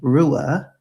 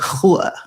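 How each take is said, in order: First: It starts with an English-style R sound. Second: It starts with a throaty H sound. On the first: The speaker calls it wrong. "would be spoken in English" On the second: The speaker calls it right. "More like throaty, like hua"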